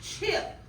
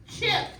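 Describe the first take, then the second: First: "chip" whispered, breathy, with no voice; whispered word. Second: "chip" called out higher, crisp and clear; clear dictation call. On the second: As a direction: say "chip" aloud, sharp and bright for the class. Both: Shown as a demonstration. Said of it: "How about".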